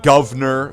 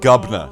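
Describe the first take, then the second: First: The word is said fully with all syllables. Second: The word is said clipped and reduced. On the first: The speaker calls it wrong. "You don't say" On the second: The speaker calls it right. "You say"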